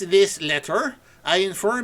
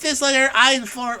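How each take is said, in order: First: It is read in an imitated Dutch accent. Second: It is read in the speaker's ordinary accent.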